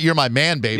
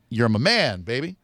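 First: It runs on without a pause before "baby". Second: There is a pause before "baby".

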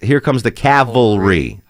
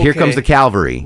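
First: The L sound comes after the V sound. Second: The L sound comes before the V sound. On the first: The speaker calls it right. "the L is after the V" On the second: The speaker calls it wrong. "most people pronounce it Calvary"

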